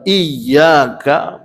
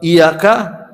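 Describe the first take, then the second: First: The y sound is doubled and held. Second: The y sound is single and short. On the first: To you we worship. The speaker calls it right. "maknanya kepadamu kami sembah" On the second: To the sunlight we worship. The speaker calls it wrong. "kepadamu matahari atau padamu cahaya kami sembah"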